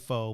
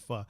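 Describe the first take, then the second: First: The word is said with an American pronunciation. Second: The word is said with its original pronunciation. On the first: The speaker calls it wrong. "Americans say pho" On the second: The speaker calls it right. "but it's actually pho"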